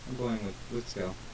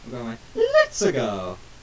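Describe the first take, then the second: First: It is said in a normal voice. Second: It is said with a put-on accent.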